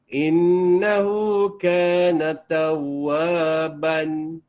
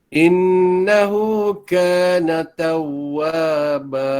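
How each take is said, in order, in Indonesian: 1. Kata terakhir berakhir dengan bunyi n. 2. Kata terakhir berakhir dengan vokal a panjang. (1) "Jangan jangan dibaca" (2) "Habis macam tu eh"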